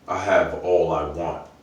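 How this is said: It sounds firm and decided.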